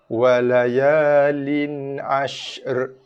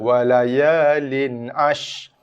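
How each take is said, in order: First: The sh is finished before a separate r. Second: The final r is not sounded at all. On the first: The speaker calls it right. "Selesaikan makhraj dan juga sifat shin dulu" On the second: The speaker calls it wrong. "Tak bunyi ra langsung, salah"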